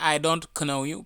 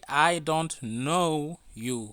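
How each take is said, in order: First: The k at the start of 'know' is sounded. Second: The k at the start of 'know' is silent. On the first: The speaker calls it wrong. "we don't say" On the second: The speaker calls it right. "we don't pronounce the lat the letter k"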